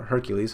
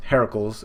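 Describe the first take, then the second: First: "Hercules" said HER-kyuh-leez; common English name. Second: "Heracles" said with a middle "uh", HAIR-uh-kulz; Greek-style name. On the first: Offering the other way to say it, "Hercules" as HER-kyuh-leez. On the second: Offering one way to say the name, "Heracles" as HAIR-uh-kulz. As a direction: say "Heracles" in three parts, first like "hair". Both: Shown as a demonstration. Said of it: "however you wanna pronounce it".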